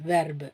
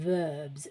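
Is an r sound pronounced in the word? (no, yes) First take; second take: yes; no. First: The r sound is pronounced. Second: The r sound is not pronounced. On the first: The speaker calls it wrong. "அப்படி சொல்லக்கூடாது" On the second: The speaker calls it right. "நான் அந்த ஆரை pronounce பண்ண மாட்டேங்கிறேன்"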